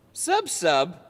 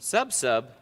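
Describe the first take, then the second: First: "Sub sub" asked with a rising tune, higher and louder; puzzled question. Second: Said in the usual way. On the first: Shown as a demonstration.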